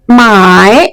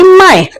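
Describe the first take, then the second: First: The pitch dips low and then rises. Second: The pitch starts high and falls sharply. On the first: It means to buy something. "हा उच्चार मी खालीवर घेतला" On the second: It means to sell something. "माझा आवाज वरती आहे आणि तो मी जोरात खाली आणला"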